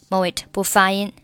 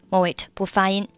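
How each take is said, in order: Both takes have the same delivery.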